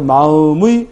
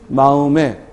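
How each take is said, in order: First: The final vowel is the diphthong 'ui'. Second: The final vowel is the plain vowel 'e'. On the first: "의로도 발음되고" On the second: "애로도 발음돼"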